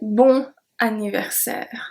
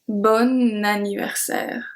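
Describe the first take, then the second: First: The n is not linked to the next word. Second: The n is linked into the next word. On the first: The speaker calls it wrong. "I don't say bon anniversaire" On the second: The speaker calls it right. "I say bon anniversaire... that's because of the link"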